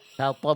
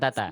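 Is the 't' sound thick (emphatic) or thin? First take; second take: thick; thin. First: The 't' is thick, with a darker vowel. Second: The 't' is thin, with a bright vowel. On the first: The speaker calls it right. "tonya tebal" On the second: The speaker calls it wrong. "bukan tata"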